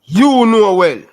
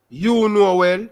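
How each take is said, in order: First: High and loud, hammering YOU; you: ऊँचा, ज़ोर से, ठोक कर; emphatic outburst. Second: Said in the usual way. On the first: Real, not acted. Emphatic insistence to interviewer.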